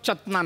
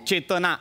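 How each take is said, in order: First: The first vowel is a short 'a'. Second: The first vowel is a long 'e'. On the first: The speaker calls it wrong. "तिचं नाव चतना नाहीये" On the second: The speaker calls it right. "चेतना आहे"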